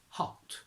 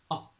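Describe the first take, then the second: First: The H sound is pronounced. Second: The H sound is dropped.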